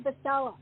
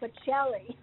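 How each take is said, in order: First: The name ends with an 'ah' vowel. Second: The name ends with an 'ee' vowel. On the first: This is the family's altered form of the name. The speaker calls it wrong. "you do not say Bacella" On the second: This is how the name is said in Italy. The speaker calls it right. "It's [name]"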